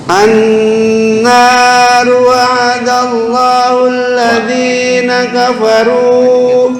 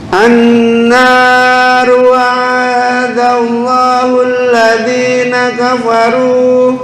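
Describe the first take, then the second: Both takes have the same delivery.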